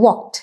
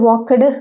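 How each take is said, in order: First: The ending joins the word in one syllable. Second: The ending is said as a separate syllable. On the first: The speaker calls it right. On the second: The speaker calls it wrong.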